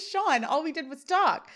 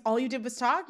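First: "Sean, all we did was talk" pitched up, falling on "talk"; protesting statement. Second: "All you did was talk" echoed with a rise on "talk"; questioning echo. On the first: Corey defends himself to his friend, "talk" falling in protest. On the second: Sean repeats his friend's claim, "talk" rising as a question. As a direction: lift "talk" into a doubting question. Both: A narrator's reading. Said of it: "Sean repeats".

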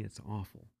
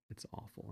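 First: Softly spoken It's awful; a subdued It's awful before the whisper; quiet. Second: Whispered It's awful on no voice; a real ashamed whisper of It's awful. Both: Real, not acted.

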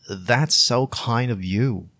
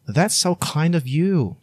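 First: That's so kind of you said slowly with each word drawn out; slow careful repeat. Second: That's so kind of you said high with That's leading; high warm thanks. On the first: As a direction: say it slowly for learners. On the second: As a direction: lift the voice up in thanks. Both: Shown as a demonstration. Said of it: "You can also say".

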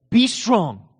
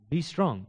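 First: A mild mock stern command; commanding God. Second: Softer, defeated echo of the command; feeble weak reply. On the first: Preacher voicing God's harsh command, mildly stern. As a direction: bark the order like an impossible demand. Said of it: "Well, that just seems cruel". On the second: Retold or imitated. Weak believer repeating the command, softly defeated. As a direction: say it like you have no strength left. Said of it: "I am weak".

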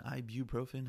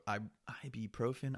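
First: Ibuprofen said as "eye-byoo-profen"; careful ibuprofen, eye-byoo-profen; second try at the word. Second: Ibuprofen said as "eye-pee-profen", unsure; halting ibuprofen with a p sound; first try at the word. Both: Shown as a demonstration. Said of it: "however the fuck you say it".

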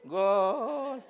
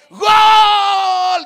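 First: Soft, drawn-out half-hearted cheer; mock unenthusiastic goal call; limp seated cheer. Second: Huge high drawn-out yell; roaring, long-held goal cry; stadium goal shout. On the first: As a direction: cheer as if too comfortable to get up. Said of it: "O dicen así sentadito". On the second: Acted. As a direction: scream it like a fan in the stands. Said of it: "dicen en el estadio".

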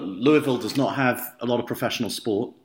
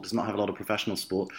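First: Said in the usual way. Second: Quicker, softer repeat with stress on "not"; fast quiet aside. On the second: Real, not acted. Repeating the point about Louisville's pro sport as a fast, softer aside.

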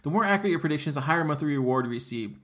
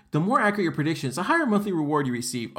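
First: Said in the usual way. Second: Fast, sarcastic recitation of the slogan; mocking reread. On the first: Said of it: "At the end of each period". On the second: Shown as a demonstration. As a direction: rattle off the empty promise with scorn. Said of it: "It just says".

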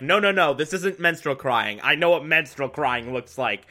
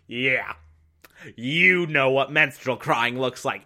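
First: Mildly insistent imitation; light acted certainty; insistent denial. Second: Sarcastic, doubting echo; dripping sarcasm. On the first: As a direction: quote a man firmly correcting someone. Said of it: "And Gordon's like". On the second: Retold or imitated. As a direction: imitate someone humouring a know-it-all. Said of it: "dripping with sarcasm".

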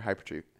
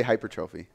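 First: Hypertrophy said hy-PER-truh-fee, softer; short unstressed middle in hypertrophy, stress on PER; pronunciation variant. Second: Hypertrophy said hyper-TROH-fee; long stressed TROH in hypertrophy; pronunciation variant. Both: Shown as a demonstration. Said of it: "How do you say".

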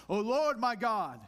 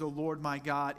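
First: "O Lord my God" intoned slow, higher and louder, lordly; overly formal church voice on "O Lord my God"; stiff and pompous. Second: Said in the usual way. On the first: Shown as a demonstration. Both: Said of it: "a stiff, pompous fashion".

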